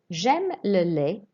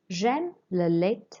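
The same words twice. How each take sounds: First: The final T of the last word is silent. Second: The final T of the last word is pronounced. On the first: The speaker calls it right. "read a sentence correctly first" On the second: The speaker calls it wrong. "Don't pronounce the T on the end"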